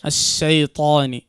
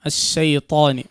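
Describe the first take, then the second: Both takes have the same delivery.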